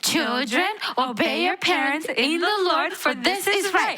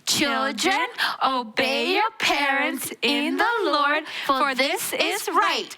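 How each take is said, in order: First: It is said a little faster. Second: It is said at a normal pace.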